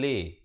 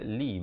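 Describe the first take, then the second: First: The vowel is an open 'eh' sound. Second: The vowel is a close 'ee' sound. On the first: The speaker calls it wrong. "bukan le" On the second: The speaker calls it right. "lam baris bawah bunyi li"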